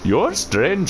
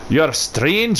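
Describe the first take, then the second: First: It is spoken in an Indian accent. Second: It is spoken in a Scottish accent. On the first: "Can I have the Indian tree?" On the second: "Could have like the Scottish tree"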